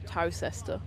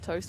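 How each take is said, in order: First: Every letter is sounded, as 'Tow-ces-ter'. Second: It sounds exactly like the word 'toaster'. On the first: "which is spelt Towcester" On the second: "Now it's toaster"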